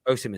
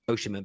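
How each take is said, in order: First: The name starts without the 'sh' sound. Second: The name starts with 'osh' like ocean.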